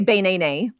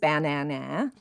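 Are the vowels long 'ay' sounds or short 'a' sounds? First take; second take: long ay; short a. First: Each vowel is a long 'ay' sound. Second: Each vowel is a short 'a' sound. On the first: "If each of the vowel letters in banana said their names" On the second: "with all the A's saying their sounds"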